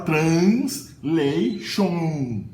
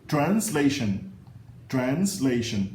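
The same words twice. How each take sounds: First: Pronúncia errada de brasileiro; Brazilian mispronunciation. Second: Translation with weak reduced vowels, stress on la; pronúncia correta em inglês; correct English. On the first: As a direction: mimic the typical Brazilian translation. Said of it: "Não, a primeira vogal e a última". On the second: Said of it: "a primeira vogal e a última vogal dessa palavra são a mesma". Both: Shown as a demonstration.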